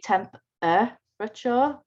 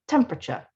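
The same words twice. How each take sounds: First: Every syllable is pronounced, including the middle one. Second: The unstressed middle syllable is dropped. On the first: The speaker calls it wrong. "We don't usually say temperature" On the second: The speaker calls it right. "We say tempera, temperature"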